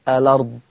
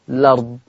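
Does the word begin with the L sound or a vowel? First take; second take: vowel; L sound. First: The word begins with a short vowel before L. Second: The word begins directly with the L sound. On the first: "اثبت همزة الوصل واقول الأرض" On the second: "حذف همزة الوصل وابدأ باللام مباشرة فتصير الأرض"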